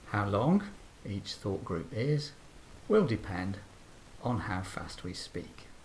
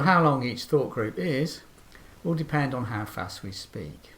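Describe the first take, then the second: First: It is said slowly with pauses between groups. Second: It is said quickly as one long group. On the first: "much shorter groups if we speak slowly and carefully" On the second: "they can be quite long if we speak quickly"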